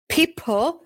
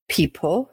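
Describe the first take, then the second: First: People. jumps high, squeaky. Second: Said in the usual way. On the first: Shown as a demonstration.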